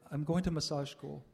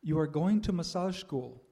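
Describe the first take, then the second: First: Said in the usual way. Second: Slow, louder, firmly commanding; Swami's command. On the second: Retold or imitated. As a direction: issue it as a measured, weighty order. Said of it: "like a command".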